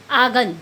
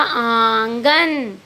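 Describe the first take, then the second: First: Said in the usual way. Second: आंगन held very slowly with a nasal आँ; आंगन with a long nasal first vowel for the chandrabindu; nasalized vowel. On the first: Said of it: "बिना चंद्र बिंदु के ये शब्द क्या है". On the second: Shown as a demonstration. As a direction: draw आंगन out through the nose, आँगन. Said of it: "जब हम आंगन पे चांद बिंदु लगाएंगे".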